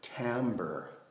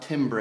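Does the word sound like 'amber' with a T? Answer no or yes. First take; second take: yes; no. First: The word sounds like amber with a T. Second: The word does not rhyme with amber. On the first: The speaker calls it right. "it's timbre, ... like the word amber, but with a T at the beginning" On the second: The speaker calls it wrong. "It's not timbre"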